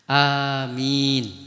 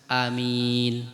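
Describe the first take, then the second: First: The first vowel is drawn out long. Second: The first vowel is said short. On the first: "dengan memanjangkan hamzah dan memanjangkan apa? Huruf mim" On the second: "dengan memendekkan hamzah"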